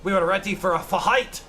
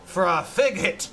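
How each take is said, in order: First: "fight" said as fuh-hight; pirate h sound. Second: "fig hit" as two hard words; split fig hit. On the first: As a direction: breathe an h into "fight". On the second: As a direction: break "fig hit" with an aspirated h. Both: Acted. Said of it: "H's are just pronounced that way".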